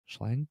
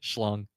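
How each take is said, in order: First: The name does not rhyme with 'long'. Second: The name rhymes with 'long'. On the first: The speaker calls it wrong. "I hope I said that correctly" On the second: The speaker calls it right. "Long. There he is"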